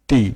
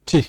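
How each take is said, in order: First: The t is said the Bengali way. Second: The t is said the English way. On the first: The speaker calls it wrong. "Not টি, টি, টাকা, এভাবে না" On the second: The speaker calls it right. "টি সাউন্ডটা ছি"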